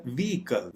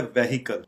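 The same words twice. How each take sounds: First: "व्हीकल" as VEE-kal, silent h; correct pronunciation. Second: "व्हीकल" as veh-hi-kal; common mispronunciation. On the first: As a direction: say "व्हीकल" in two syllables without h. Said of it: "correct pronunciation है". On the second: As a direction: sound the h in "व्हीकल", three syllables. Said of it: "आम तौर पे pronounce". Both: Shown as a demonstration.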